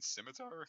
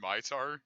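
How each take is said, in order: First: The word begins with an s sound. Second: The word begins with an sh sound. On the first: The speaker calls it right. "you mean scimitar?" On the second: The speaker calls it wrong. "I thought it was pronounced ... where am I getting this H from?"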